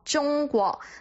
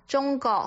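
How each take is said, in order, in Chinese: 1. 这个词发音完整、认真。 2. 这个词发音含糊，是懒音。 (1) "正确的一个发音就应该是国" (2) "这个其实呢就是一个懒音的出现"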